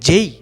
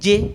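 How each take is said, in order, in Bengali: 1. স্বরটি e থেকে ee-তে গড়িয়ে যায়। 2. স্বরটি হলো সরল, ছোট e। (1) "জের উচ্চারণটা হচ্ছে যেই" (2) "জে বলে থাকি, কিন্তু না"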